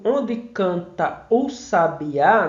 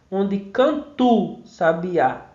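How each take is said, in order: First: The vowels of 'canta o' are said separately. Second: The vowels of 'canta o' merge into one. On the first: "quando eu digo" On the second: "isso aqui se funde na oralidade"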